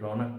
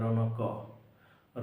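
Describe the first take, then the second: First: The word ends on a bare k sound. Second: The final k is followed by a full vowel. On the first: The speaker calls it right. "रौनक पढ़ते हैं" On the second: The speaker calls it wrong. "रौनक क नहीं पढ़ते हैं"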